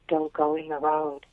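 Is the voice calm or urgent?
calm. It is said calmly and quietly.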